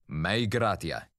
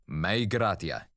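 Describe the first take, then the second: No difference in how they are said.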